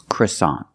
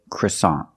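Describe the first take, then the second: First: It is said with an American pronunciation. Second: The same.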